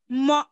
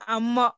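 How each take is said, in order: First: The initial a sound is dropped. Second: The initial a sound is pronounced. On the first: The speaker calls it right. "on a te, mo et non amo" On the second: The speaker calls it wrong. "et non amo"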